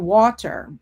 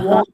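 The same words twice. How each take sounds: First: The middle T is clearly pronounced. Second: The middle T becomes a glottal stop. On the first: "instead of water" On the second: "glottal stop"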